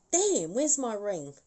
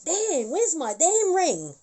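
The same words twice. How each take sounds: First: A touch of irritation, slow; a hint of the spirit's annoyance at the lost ring; mild annoyance. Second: Louder, higher and slow, fed up; exasperated. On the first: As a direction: mutter it while checking the hand. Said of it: "looking at her hand going". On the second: Retold or imitated. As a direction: demand the ring back, irritated. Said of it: "And she's like".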